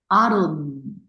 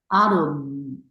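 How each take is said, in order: First: The final consonant is held with continuing sound. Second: The same.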